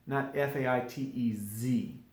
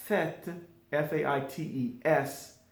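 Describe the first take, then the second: First: Letter by letter "F A I T E Z", ending on Z as the wrong version; wrong spelling with Z. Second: Letter by letter "F A I T E S", ending on S; spelled with S. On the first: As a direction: spell it out with a final Z to show the mistake. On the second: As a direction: spell "faites" clearly, landing on the S. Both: Shown as a demonstration.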